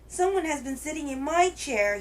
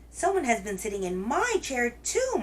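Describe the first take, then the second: First: It is said in a wee little voice. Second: It is said in a medium-sized wailing voice.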